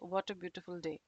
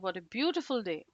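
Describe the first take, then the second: First: It is said flatly with little pitch movement. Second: It is said with stressed words and higher pitch. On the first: The speaker calls it wrong. "doesn't really sound good" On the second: The speaker calls it right. "stress on certain words here... with a higher tone"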